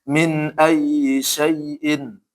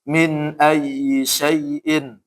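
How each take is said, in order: Both takes have the same delivery.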